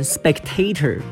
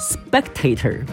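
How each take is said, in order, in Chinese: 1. 重音在第二个音节。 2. 重音在第一个音节。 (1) "重音可以放在后面的A" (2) "重音也可以放在第音节E 的地方"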